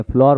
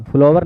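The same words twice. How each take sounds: First: फ्लोर said as floor, one syllable; फ्लोर, the right way; right reading floor. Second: फ्लावर said as flower, two syllables; फ्लावर, the wrong way; wrong reading flower. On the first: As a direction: read it फ्लोर with a long o. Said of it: "फ्लोर पढ़ते हैं". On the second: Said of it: "फ्लावर नहीं पढ़ते हैं". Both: Shown as a demonstration.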